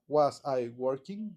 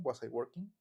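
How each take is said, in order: First: "Was I working?" slowly, small pause after "Was"; the wrong way, word by word. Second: "Was I working?" blended like "wasa i working"; linked as one word. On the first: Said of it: "hace una pequeña pausa". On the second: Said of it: "díganlo como si fuera una". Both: Shown as a demonstration.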